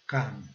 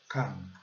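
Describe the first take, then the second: No difference in how they are said.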